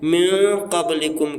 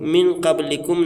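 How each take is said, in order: First: The n is hidden as a nasal sound. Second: The n is pronounced fully and clearly. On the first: The speaker calls it right. "बल्कि म्यू क़ब्लिकुम कहना है" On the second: The speaker calls it wrong. "नहीं कहना है"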